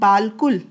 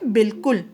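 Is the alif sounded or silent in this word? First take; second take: sounded; silent. First: The written alif is sounded as a long vowel. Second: The written alif is silent, no long vowel. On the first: The speaker calls it wrong. "लिखने में क्या है ये" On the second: The speaker calls it right. "लेकिन हम इसे पढ़ते क्या है"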